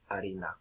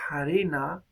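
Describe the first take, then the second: First: The word begins directly with the vowel. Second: The word begins with a breathy h sound. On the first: "después desaparece por completo" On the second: "llega a pronunciarse harina"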